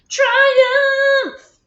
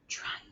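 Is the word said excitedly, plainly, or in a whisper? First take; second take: excitedly; whisper. First: The word is said loudly and excitedly. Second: The word is said in a quiet whisper. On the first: "Now say it like you just had a triumph" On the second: "Now say it in a whisper voice"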